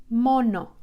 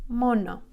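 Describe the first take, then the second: Both takes have the same delivery.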